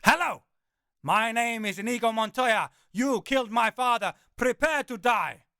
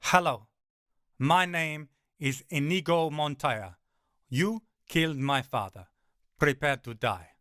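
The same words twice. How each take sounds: First: Higher, louder, gleeful full-throated Montoya; loud Inigo Montoya. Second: Lightly voiced Inigo Montoya, calm and menacing; low Inigo Montoya. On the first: Acted. Narrator taunts the terrified hound, high and loud Montoya. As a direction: belt the famous line with gusto. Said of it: "my smile widening". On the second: Narrator calmly quotes Inigo Montoya to the giant dog. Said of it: "it's seen the Princess Bride".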